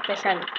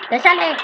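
First: Said in the usual way. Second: Louder, much higher repeated question; exclaimed question. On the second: Real, not acted. Player checking what comes out, exclaimed question. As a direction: call it out, pitch jumping up.

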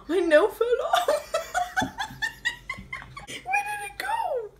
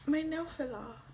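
First: Laughing. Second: Said in the usual way. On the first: Real, not acted. Nail falls off, laughing.

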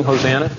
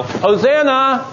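First: Said in the usual way. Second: High, drawn-out yell of praise; crowd yelling. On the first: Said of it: "Remember, they were all yelling". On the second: Acted. Thousands hailing Jesus at the triumphal entry, yelling. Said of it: "all these thousands of people yell".

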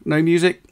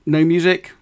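No difference in how they are said.

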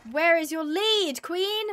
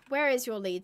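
First: Slow, raised-pitch demand, climbing on the last word; exasperated demand. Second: Said in the usual way. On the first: Real, not acted. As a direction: draw it out louder, losing patience. Asks again, exasperated with animal.

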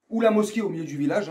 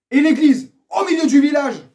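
First: Said in the usual way. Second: High, loud proclamation; emphatic shout. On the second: Real, not acted. Vlogger setting things straight, emphatic shout. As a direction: belt it out to settle the matter. Forceful punchline of rant.

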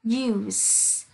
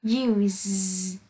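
First: "use" ending in a voiceless s, as the noun. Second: "use" drawn out, ending in a voiced z, as the verb. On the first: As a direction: hiss the final consonant of "use" as s. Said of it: "you là danh từ sẽ đọc là". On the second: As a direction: buzz the final consonant of "use" as z. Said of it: "you là động từ sẽ đọc là". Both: Shown as a demonstration.

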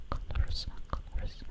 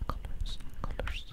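Both takes have the same delivery.

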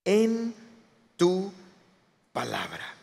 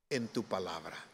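First: "en", "tu", "palabra" split by pauses; word-by-word emphasis. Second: Very soft, low quotation; hushed reverence. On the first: Preacher driving home Peter's words, "en... tu... palabra" word by word. Key phrase again, word by word. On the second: Preacher recalling Peter's words to Jesus, hushed and low. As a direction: say it low and humbly in one phrase. Repeats Peter's key phrase, reflective. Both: Acted.

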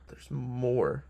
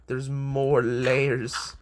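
First: Said in the usual way. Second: Drawn-out. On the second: Shown as a demonstration.

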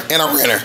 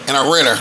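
No difference in how they are said.

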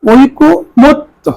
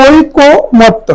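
First: ঐকমত্য stretched syllable by syllable, high, as oikkomotto; very slow pronunciation demo. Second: ঐকমত্য said very slowly, high, as oikkomotto; slow pronunciation demo. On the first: Teacher closes the word drill on ঐকমত্য, very slow demo. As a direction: pull ঐকমত্য apart slowly, each syllable raised. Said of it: "ক ওকার হয়ে যাবে ঐকমত্য". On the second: Teacher slowly models ঐকমত্য for exam students, high and deliberate. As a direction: draw ঐকমত্য out slowly on a raised pitch. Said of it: "তাহলে এটা উচ্চারণ হবে". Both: Shown as a demonstration.

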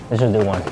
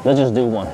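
No difference in how they are said.

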